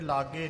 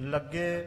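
First: The first vowel is a long aa sound. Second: The first vowel is short with a doubled g. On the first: The speaker calls it wrong. "ਇਹ ਲਾਗੇ ਨਹੀਂ ਉਚਾਰਨ ਕਰਨਾ" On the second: The speaker calls it right.

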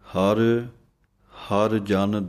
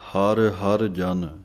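First: The first word is set apart by a break. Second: The first two words run together without a break. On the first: The speaker calls it right. "ਹਰ ਇਹ ਵੱਖਰਾ ਬੋਲਣਾ ਹੈ, ਹਰ ਜਨ ਇਹ ਪਾਠ ਇਕੱਠਾ ਬੋਲਣਾ ਹੈ" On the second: The speaker calls it wrong. "ਇਸ ਤਰ੍ਹਾਂ ਨਹੀਂ ਬੋਲਣਾ"

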